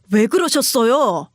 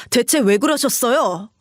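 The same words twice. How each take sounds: First: "그러셨어요" drawn out slowly, each syllable weighed; slow insistent question. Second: Said in the usual way. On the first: Acted. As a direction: press her slowly for an answer. Husband repeats question to mother.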